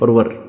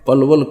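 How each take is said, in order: First: The word is said with R sounds. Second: The word is said with L sounds. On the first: This is how local people say the name. "पलवल के आसपास के क्षेत्र के लोग पलवल को परवर बोलते हैं" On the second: This is the standard form of the name. "पलवल को परवर बोलते हैं"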